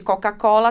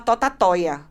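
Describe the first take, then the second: First: The word has its normal k and l sounds. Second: The k and l sounds are replaced by t. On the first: "ao invés de Coca-Cola" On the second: "ela trocava a maioria pelo T"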